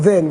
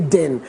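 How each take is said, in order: First: The word begins with a soft th sound. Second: The word begins with a hard d sound. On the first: "Instead of then" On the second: "we say den"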